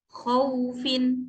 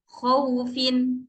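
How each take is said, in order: No difference in how they are said.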